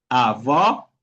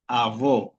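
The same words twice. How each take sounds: First: "avó" with an open, rising final o; outward open vowel. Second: "avó" with a closed, falling final o; inward closed vowel. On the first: Teacher explaining the acute accent, open final vowel on "avó". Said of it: "una fuerza de voz para afuera". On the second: Teacher showing the other accent, closed final vowel on "avó". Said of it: "otra cosa es decir avó". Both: Shown as a demonstration.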